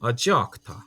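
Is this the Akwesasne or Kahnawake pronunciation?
Akwesasne. It has a ja-like cluster, Akwesasne style.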